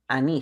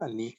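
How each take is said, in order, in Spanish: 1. La primera vocal se alarga. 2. La primera vocal es corta.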